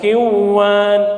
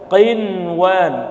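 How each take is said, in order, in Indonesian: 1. Bunyi n dihilangkan sebelum w. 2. Bunyi n dipertahankan sebelum w. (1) "bukan kiwan" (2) "qinwan tetap ya"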